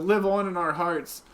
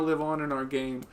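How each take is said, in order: First: Hammed-up tribute, stress on "live"; a mock-grand farewell, "live" leaned on; mock solemn eulogy. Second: Said in the usual way.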